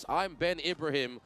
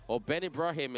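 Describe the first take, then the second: First: Said in the usual way. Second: Ibrahim with an open ah in the middle, ib-rah-him; Malaysian pronunciation. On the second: Shown as a demonstration. Commentator to Malaysian viewers, saying Ibrahim the Malaysian way. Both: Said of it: "as they say in Malaysia".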